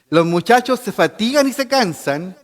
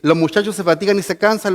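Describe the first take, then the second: First: The phrase is spoken at a noticeably slower pace. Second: The phrase is spoken at a normal, quicker pace.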